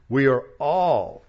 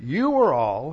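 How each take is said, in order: First: "all" drawn out slow and punched louder; stress on all. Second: "You" hit louder, pointing outward; stress on you. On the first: Preacher to congregation, hammering "all" with heavy stress. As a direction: lean hard on "all", slowly. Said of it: "here I've emphasized the words all". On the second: Preacher showing the wrong reading, stressing "You". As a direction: punch "You" as if accusing others. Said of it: "He's not saying". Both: Shown as a demonstration.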